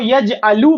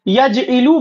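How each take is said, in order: First: The middle consonant takes an a vowel. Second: The middle consonant takes an i vowel. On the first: "ऐन कलीमा पर जबर भी आ सकता है" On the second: "जेर भी आ सकता है"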